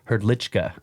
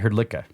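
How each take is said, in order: First: The middle consonant is a ch sound. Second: The middle consonant is a k sound. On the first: The speaker calls it right. "you probably pronounce that with a C H in there" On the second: The speaker calls it wrong. "it does look like Hrdlicka"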